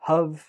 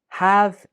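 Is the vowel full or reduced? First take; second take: reduced; full. First: The word is said with a reduced vowel. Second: The word is said with a full vowel.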